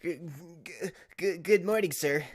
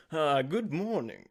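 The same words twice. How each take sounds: First: Put-on higher, louder stammering young lawyer; nervous Apollo. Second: First try at Apollo. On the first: Streamer voicing Apollo greeting his boss, stammering nervously. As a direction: stutter out the greeting, jittery and eager. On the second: Acted. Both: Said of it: "I don't know what I'm gonna do for Apollo's voice".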